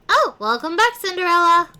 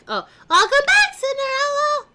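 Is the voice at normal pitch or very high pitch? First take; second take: normal; very high. First: The voice is at a normal speaking pitch. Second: The voice jumps to a very high pitch.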